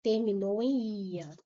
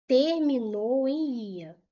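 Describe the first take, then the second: First: Said in the usual way. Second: "Terminou em ia" slow and loud, each word weighted; emphatic repeat. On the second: Shown as a demonstration. Teacher drawing students' attention to the ending, "Terminou em ia" slow, loud and emphatic. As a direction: stretch "Terminou em ia" firmly, drawing out the ia.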